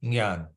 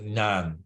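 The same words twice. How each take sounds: First: The word begins with a 'ny' sound. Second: The word begins with a 'ny' sound.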